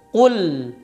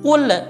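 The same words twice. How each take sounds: First: The final l is held only slightly and lightly. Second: The final l bounces with an extra release. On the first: The speaker calls it right. "Dia cuma ada sedikit unjatan" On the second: The speaker calls it wrong.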